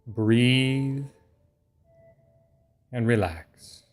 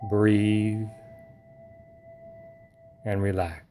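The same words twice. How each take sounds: The two takes are said the same way.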